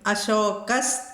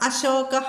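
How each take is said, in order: First: The word ends in an s sound. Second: The word ends in a breathy h sound.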